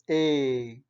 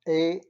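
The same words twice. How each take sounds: First: The vowel is long and stretched. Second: The vowel is short. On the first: "the longer version of the A" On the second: "we saw A as in Eli"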